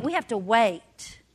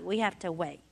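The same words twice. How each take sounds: First: Slowed down, patient and firm; slow insistence. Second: Much lower and softer; softer repeat. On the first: Mother telling her daughter to be patient, slow and firm. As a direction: spell out the waiting slowly. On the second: Mother repeating the lesson to the congregation, soft and low. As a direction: let the repeat fall away gently. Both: Shown as a demonstration.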